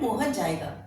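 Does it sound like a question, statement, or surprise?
statement. It is said in a plain, neutral tune. Mohan will go. "अभी हम साधारण बोल रहे हैं"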